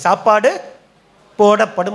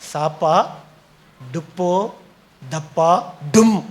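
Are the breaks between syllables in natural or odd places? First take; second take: natural; odd. First: The phrase is split at its normal word boundaries. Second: The phrase is split at odd points inside words. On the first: Food will be served. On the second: The reader cannot read properly.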